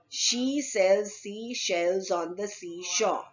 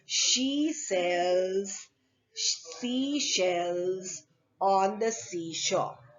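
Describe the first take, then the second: First: It is said fast. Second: It is said at a normal pace.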